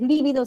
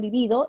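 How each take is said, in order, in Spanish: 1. El acento está en la primera sílaba. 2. El acento está en la segunda sílaba. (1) "Si es lívido es esdrújula" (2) "si digo libido es grave"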